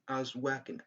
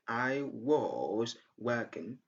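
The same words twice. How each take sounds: First: The word 'was' has a short schwa vowel. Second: The word 'was' has a long, full vowel. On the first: "Very short, the weak form" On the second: "Instead of saying"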